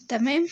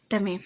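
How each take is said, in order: First: تمام؟ with a bright rising question tune; تمام؟ lifted at the end like a question; questioning tamam. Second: تمام. with a low falling answer tune; تمام. falling flat and final; settled tamam. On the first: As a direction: ask تمام؟ upward and a bit louder, checking in. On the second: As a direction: answer yourself with تمام. dropping down and closing. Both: Shown as a demonstration.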